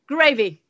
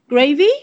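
First: The voice falls at the end of the word. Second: The voice rises at the end of the word. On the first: It comes across as a blunt statement. "This downward intonation" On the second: It comes across as a polite offer. "when the British cafeteria ladies offered them gravy, they said"

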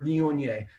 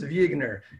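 First: The word is pronounced in a French way. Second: The word is pronounced in an anglicized way. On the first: The speaker calls it right. "of course the waiter" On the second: The speaker calls it wrong. "I'm really good at butchering it"

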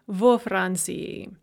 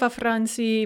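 First: The vowel in the preposition is full. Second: The vowel in the preposition is reduced.

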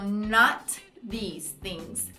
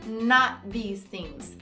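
First: The phrase is said slowly. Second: The phrase is said quickly.

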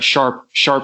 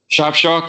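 First: It is said in an American accent. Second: It is said in a non-American accent.

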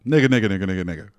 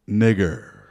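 First: The word ends in a reduced 'uh' sound. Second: The word ends in a clear 'er' sound. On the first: "it sounded like you were saying the GGA ending" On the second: "Free and clear"

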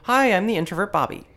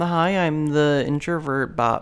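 First: It is said with high energy. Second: It is said with low energy.

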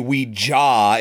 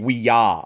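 First: The second syllable starts with a J sound. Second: The second syllable starts with a Y sound. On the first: The speaker calls it wrong. "It wouldn't be Ouija" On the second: The speaker calls it right. "the German word for yes is ja. ... it would be Ouija"

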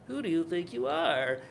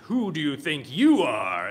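First: It is said like a timid little person. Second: It is said like a powerful wizard.

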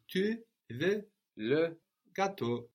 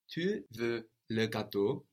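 First: The voice falls at the end like a statement. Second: The voice rises at the end like a question. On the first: It states that you want the cake. "How would you say you want the cake?" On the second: It asks whether you want the cake. "we just can make a question tone with our voice"

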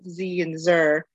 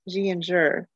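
First: The names begin with a 'z' sound. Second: The names begin with a 'j' sound. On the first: The names are read following Spanish and Nahuatl pronunciation. The speaker calls it right. "It would be more of a Z and Zer" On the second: The names are read as if they were Chinese words. The speaker calls it wrong. "it's like a Chinese word"

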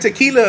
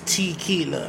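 First: It is pronounced like the liquor's name. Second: It begins with a sound like 'tiki'. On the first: The speaker calls it wrong. "I kept saying Tequila, like the liquor" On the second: The speaker calls it right. "But no, it's Tequila"

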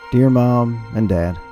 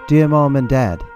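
First: It is said in a plain, normal voice. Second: It is said in a put-on war-movie voice.

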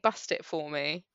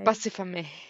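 First: The words are said separately and clearly. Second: The words are run together as one word. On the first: "so she's saying bust it for me" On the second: "It's all one word"

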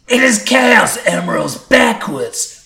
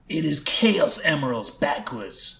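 First: It is screamed in a happy voice. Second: It is said calmly, without screaming.

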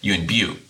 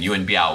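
First: The name is said with a Cantonese pronunciation. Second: The name is said with a Mandarin pronunciation. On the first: This is the form used by people who speak Cantonese. "the Cantonese pronunciation of" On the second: This is the form used more often, as in advertising. "we are using the Mandarin version"

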